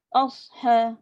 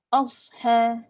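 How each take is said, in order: The two takes are said the same way.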